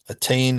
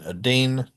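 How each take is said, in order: First: The middle T is a full T sound. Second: The middle T is a quick flap. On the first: The speaker calls it right. "is fine" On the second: The speaker calls it wrong. "no good"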